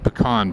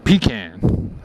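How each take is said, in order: First: It is said the speaker's usual, non-southern way. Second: It is said the way a true southerner says it. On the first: "I think I say pecan pie" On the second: "If you're really southern, you say pecan"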